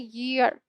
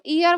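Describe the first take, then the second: First: The word begins with a y sound. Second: The word begins with a plain vowel sound. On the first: The speaker calls it right. "इसको बोला जाता है ईयर, ये सही है" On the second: The speaker calls it wrong. "अगर आप इसको ईयर बोलते हो तो ये गलत है बच्चों"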